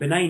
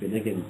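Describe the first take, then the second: First: The word is said with no G sound. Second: The word is said with a hard G sound. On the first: "the G has no influence" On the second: "if you pronounce the G"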